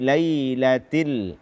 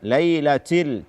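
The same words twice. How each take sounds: First: The t has a light breath release. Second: The t has an exaggerated puff of air. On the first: The speaker calls it right. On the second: The speaker calls it wrong.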